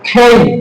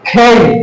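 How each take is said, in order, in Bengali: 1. এটি শ্বাসযুক্ত kh ধ্বনি দিয়ে শুরু। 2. এটি শ্বাসযুক্ত kh ধ্বনি দিয়ে শুরু।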